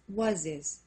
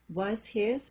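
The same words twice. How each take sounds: First: The H in 'his' is silent. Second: The H in 'his' is pronounced.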